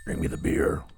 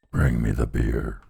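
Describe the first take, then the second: First: Voiceless whisper of Bring me the beer; whispered skull. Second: Very low, slow hollow skull voice on Bring me the beer; deep skull voice. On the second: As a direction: drop way down and drag Bring me the beer. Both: Shown as a demonstration. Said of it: "Tucky Skulls never lie".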